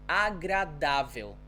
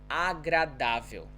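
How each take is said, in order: The two takes are said the same way.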